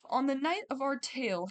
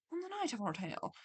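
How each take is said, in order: First: Said in the usual way. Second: Attempted Scottish accent, quieter. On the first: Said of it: "Why do I wanna read it in, like, a Scottish accent now?". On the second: Shown as a demonstration. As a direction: try a Scottish lilt on the story line. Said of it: "I can't do a Scottish accent".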